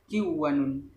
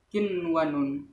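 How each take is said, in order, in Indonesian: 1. Bunyi n menyatu dengan bunyi w berikutnya. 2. Bunyi n diucapkan jelas sebelum w. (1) "tidak boleh dibaca kiwanun" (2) "dengan terang idhar"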